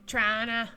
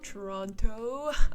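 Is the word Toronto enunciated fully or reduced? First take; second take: reduced; enunciated. First: The word is squeezed into two quick syllables. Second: Every syllable of the word is clearly pronounced. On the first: The speaker sounds like a local Canadian. "you're not Canadian until you pronounce uh, Toronto, Toronto like Trana" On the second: Outsiders can understand which city is meant. "I have to enunciate for my fellow Europeans"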